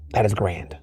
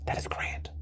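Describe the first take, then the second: First: Said in the usual way. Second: Very soft unvoiced whisper of delight. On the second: Real, not acted. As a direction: let it slip out as a breathy secret. Savouring caviar, repeated aloud.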